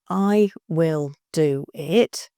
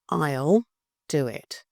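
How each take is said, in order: First: 'I will' is said as two full words. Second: 'I will' is contracted into one syllable.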